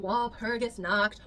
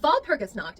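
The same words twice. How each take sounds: First: It is pronounced with English sounds. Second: It is pronounced with German sounds.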